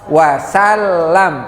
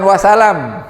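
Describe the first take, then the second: First: The L sound is held long and doubled. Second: The L sound is short and single. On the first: The speaker calls it right. "wasallam pakai tasdid" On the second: The speaker calls it wrong. "bukan wasalam"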